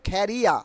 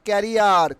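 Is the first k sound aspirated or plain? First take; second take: aspirated; plain. First: The first k is aspirated, with a puff of air. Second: The first k is plain, without a puff of air. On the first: The speaker calls it right. "কি হবে?" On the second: The speaker calls it wrong. "Not ক্যারিয়ার"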